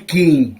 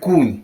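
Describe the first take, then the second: First: The vowel sounds like 'ee'. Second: The vowel sounds like 'oo'. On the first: This is the neighboring village form. "А там кажуть кінь" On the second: This is the local village form. "Нас кажуть кунь"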